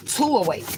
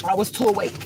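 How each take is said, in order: First: "too awake" higher and cracking, real tears; voice breaking. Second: High, teary "too awake"; crying. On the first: Repeating to viewers that she was too awake, voice breaking. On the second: Telling viewers she felt too awake, crying. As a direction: say it through real tears. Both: Real, not acted. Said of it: "I hate when I cry".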